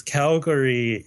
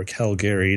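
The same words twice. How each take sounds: First: Said in the usual way. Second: "Calgary" with a full middle vowel, Cal-GARE-ee; alternate pronunciation. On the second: Shown as a demonstration. Offering the other way to say it, "Calgary" as Cal-GARE-ee. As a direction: say all three syllables of "Calgary". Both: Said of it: "depending on how you say it".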